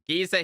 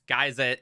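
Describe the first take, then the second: First: The word is said the British way. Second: The word is said the American way. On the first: "here in the U K" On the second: "I think it's geyser in the U S"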